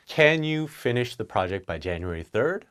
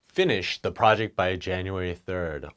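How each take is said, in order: First: Polite rising question; a polite question to a colleague; nicer request. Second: A blunt boss order; direct command. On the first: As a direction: ask it nicely. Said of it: "That's a lot nicer". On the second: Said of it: "It's pretty direct". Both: Shown as a demonstration.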